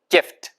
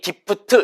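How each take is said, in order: First: The consonant is an f with lower lip on teeth. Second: The consonant is a p-like sound without lip-teeth contact. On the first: The speaker calls it right. "위치 아랫 입술" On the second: The speaker calls it wrong. "gift 이렇게 하지 마시고"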